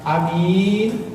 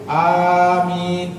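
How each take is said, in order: First: Only the second vowel is held long. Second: Both vowels are held long. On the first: "mimnya panjang" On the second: "a-nya panjang, mimnya panjang"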